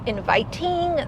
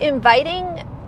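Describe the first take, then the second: First: Every sound of the word is pronounced very carefully. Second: The word is pronounced in a relaxed, ordinary way.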